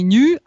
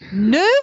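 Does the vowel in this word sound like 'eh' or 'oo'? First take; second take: oo; eh. First: The vowel sounds like 'oo'. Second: The vowel sounds like 'eh'. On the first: The speaker calls it wrong. "Только не ню" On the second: The speaker calls it right. "а не па"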